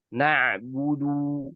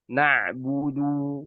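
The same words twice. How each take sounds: The two takes are said the same way.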